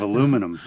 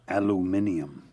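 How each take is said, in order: First: The word is said with four syllables. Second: The word is said with five syllables. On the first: This is the form used in America. "instead of aluminum" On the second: This is the form used in England. "I prefer England's aluminium"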